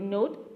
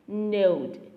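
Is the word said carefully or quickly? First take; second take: quickly; carefully. First: The word is said quickly and casually. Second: The word is said slowly and carefully. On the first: "But we used to be very quickly like" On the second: "Itu secara benarnya untuk pronunciation-nya seperti itu ya"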